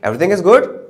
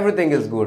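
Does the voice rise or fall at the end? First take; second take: rise; fall. First: It rises at the end, as a question. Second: It falls at the end, as a statement.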